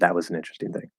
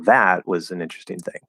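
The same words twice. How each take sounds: First: The stress is spread evenly and neutrally. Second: One word carries special emphasis. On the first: "Instead of" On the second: "they're giving emphasis because they're referring back to"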